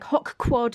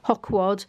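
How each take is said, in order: First: The two words are said separately. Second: The two words are run together. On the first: "I was like hoc quad yesterday" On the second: "I could just smush them together"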